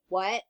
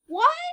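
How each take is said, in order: First: It is said in a lower voice. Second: It is said in a high voice.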